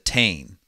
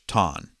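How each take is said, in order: First: It is said with an American pronunciation. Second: It is said with an Irish pronunciation. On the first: "as us Americans would say it" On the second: "pronounced in Irish"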